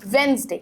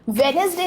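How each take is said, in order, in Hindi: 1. बीच का nes syllable पूरी तरह छोड़ दिया जाता है। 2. बीच का nes सिलेबल साफ़ बोला जाता है। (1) "इट्स वेंसडे" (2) "वेडनेसडे नहीं है"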